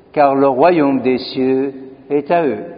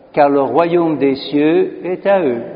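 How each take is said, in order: Both takes have the same delivery.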